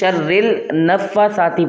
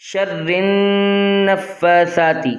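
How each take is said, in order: First: An L sound is joined after the R. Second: The R runs straight into the N, no L. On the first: The speaker calls it wrong. "را جو ہے لام سے ملا ملا دیتے ہیں" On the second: The speaker calls it right. "اب یہاں پر دیکھ لیجئے"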